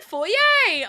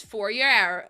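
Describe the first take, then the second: First: Foyer said FOY-ay, the posh French way, high and loud. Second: Foyer said FOY-yer with an R, the American way; dad's foyer. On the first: Shown as a demonstration. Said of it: "he's posh like me". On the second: Retold or imitated. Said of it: "My dad says foyer instead of".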